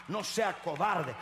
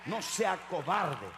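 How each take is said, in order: Both takes have the same delivery.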